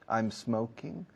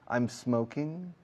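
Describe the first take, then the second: First: The m runs straight into the s. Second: The m runs straight into the s.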